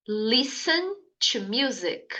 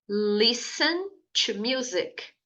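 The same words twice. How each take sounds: The two takes are said the same way.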